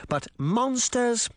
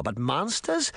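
First: "but monsters?" high and slow, scornful; scoffing. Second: Sarcastic echo. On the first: Mayor scoffing at the old woman, slow and high. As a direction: stretch "monsters?" in disbelief. Charming mocking Relda's theory. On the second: Old woman mocking the mayor, dry echo. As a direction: throw his words back at him. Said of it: "said sarcastically". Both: A narrator's reading.

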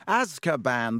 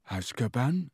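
First: Scornful, can't-believe-you tone; disbelieving. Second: Confused questioning rise; puzzled. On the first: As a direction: say it like he's an idiot. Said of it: "looking at him in disbelief". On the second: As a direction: repeat it, baffled. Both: Acted.

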